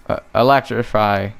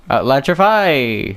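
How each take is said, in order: First: Said in the usual way. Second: Electrify stretched slow and proud; drawn-out triumphant call. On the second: Shown as a demonstration. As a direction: announce Electrify like a big move.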